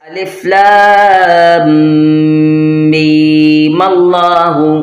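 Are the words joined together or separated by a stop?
joined. The words are joined without a stop.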